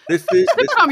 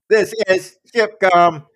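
First: The voice is cheerful and friendly, like cabin service. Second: The voice is cold and flat, like a machine. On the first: The speaker calls it wrong. "You're running a very pleasant program" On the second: The speaker calls it right. "Yeah, that's better"

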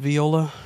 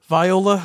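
First: It is pronounced like the musical instrument. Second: It is not pronounced like the musical instrument. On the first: The speaker calls it wrong. "Pronouncing it like it's an instrument" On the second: The speaker calls it right. "Viola, not Viola"

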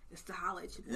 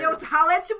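First: It is said flatly, without energy. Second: It is said with loud, hyped energy.

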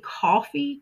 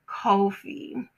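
First: It is pronounced like the word coffee. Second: It is pronounced like the name Kofi. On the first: The speaker calls it right. "It is actually coffee" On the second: The speaker calls it wrong. "I've been calling it Kofi"

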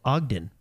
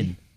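First: The d sound is pronounced in the middle. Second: The d sound is dropped from the middle. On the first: The speaker calls it right. "we have a city in our state called Ogden" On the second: The speaker calls it wrong. "Google pronounces it"

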